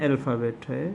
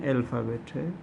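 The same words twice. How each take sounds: The two takes are said the same way.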